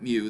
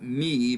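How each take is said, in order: First: The vowel sounds like 'oo'. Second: The vowel sounds like 'ee'. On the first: This is how English speakers say it. "the English pronunciation of that Greek letter" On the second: This is how a Greek speaker would say it. "if we were Greek, we would call that me"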